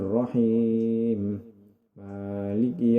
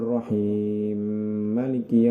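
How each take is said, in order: First: The two m sounds are kept separate. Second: The two m sounds merge into one. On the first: "dibaca idhar seperti biasanya" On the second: "mengidghamkan huruf mim dengan mim"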